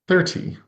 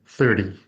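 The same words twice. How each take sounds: First: Every sound is pronounced carefully and fully. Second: The word is pronounced in a relaxed, reduced way. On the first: "I just said it with very careful speech" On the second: "in casual speech"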